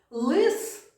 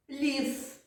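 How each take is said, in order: First: «Лис» higher and louder, with a hard л; «Лис» with a hard л, pitched up; hard L demo. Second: «ліс» high and softer, with a soft л; «ліс» with a soft л, against «Лис»; soft L demo. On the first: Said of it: "teacher demonstrates hard L". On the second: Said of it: "teacher demonstrates soft L". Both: Shown as a demonstration.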